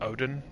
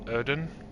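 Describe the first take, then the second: First: The name sounds like 'Odin'. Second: The name sounds like 'Erden'. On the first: This is a personally preferred pronunciation. "I prefer just calling it Odin, like kind of like, you know, the Nordic god Odin" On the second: This is believed to be the official pronunciation. "I believe it's actually pronounced Erden"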